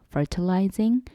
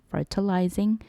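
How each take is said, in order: The two takes are said the same way.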